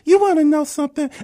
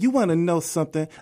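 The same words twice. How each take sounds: First: It is said in a higher imitating voice. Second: It is said in his plain voice.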